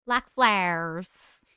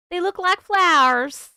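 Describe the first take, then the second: First: Slowed-down, savoring echo; slow repeat. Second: Higher and louder, delighted; excited. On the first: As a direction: stretch the words out slowly. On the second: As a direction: exclaim it brightly. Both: Shown as a demonstration.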